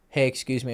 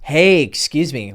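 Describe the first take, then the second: First: It is said flatly with little energy. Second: It is said with lively energy and intonation. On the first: The speaker seems weak and nervous. The speaker calls it wrong. "you're coming off like really boring" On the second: The speaker seems confident and expressive. The speaker calls it right. "show some energy"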